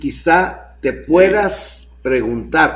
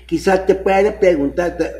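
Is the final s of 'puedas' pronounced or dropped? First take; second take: pronounced; dropped. First: The final s of puedas is pronounced. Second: The final s of puedas is dropped. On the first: She might ask herself what is missing. The speaker calls it right. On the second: He himself seems to be the one asking. The speaker calls it wrong. "Pero como este güey le corta"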